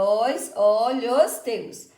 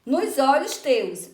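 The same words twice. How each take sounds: First: "os, o, lhos, teus" pulled apart and held; syllable by syllable. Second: Said in the usual way. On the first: Shown as a demonstration. Teacher counting the verse for pupils, syllable by syllable. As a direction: count out "os olhos teus" in separate, stretched syllables. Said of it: "Então, a gente conta". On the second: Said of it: "a gente conta".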